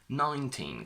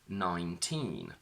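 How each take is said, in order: First: The stress is on the first syllable. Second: The stress is on the second syllable. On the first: "the stress shifts to the front" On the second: "the stress is on teen"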